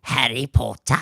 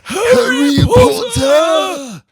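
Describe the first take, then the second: First: The name is said quietly on a gasp. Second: The name is exclaimed loudly and theatrically.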